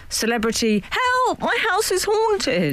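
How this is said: The title is said in a dramatic, acted way.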